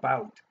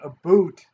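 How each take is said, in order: First: The vowel sounds like 'ow' in 'out'. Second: The vowel sounds like 'oo' in 'boot'. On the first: "instead of about" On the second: "they say about instead"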